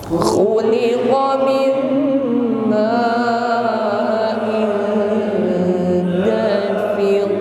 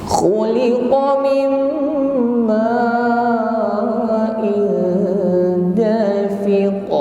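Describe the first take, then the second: The two takes are said the same way.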